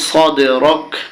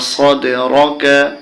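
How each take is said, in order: First: The word ends on the k consonant. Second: The word ends with a final a vowel. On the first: The reader stops at this point. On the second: The reading continues without stopping.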